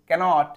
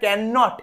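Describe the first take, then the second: First: It is said as one joined word. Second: It is said as two separate words. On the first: The speaker calls it right. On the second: The speaker calls it wrong.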